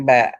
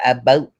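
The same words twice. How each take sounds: First: "about" with an open ow vowel; corrected pronunciation. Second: "a boat" with a long oh; mimicked "boat" pronunciation. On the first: Correcting Roland on the word meant, ow in "about". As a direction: say "about" with ow, falling at the end. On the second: Correcting Roland on the word meant, long-oh "boat". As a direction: say "a boat" like the vessel, rising. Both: Shown as a demonstration. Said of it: "I ain't talking about a boat".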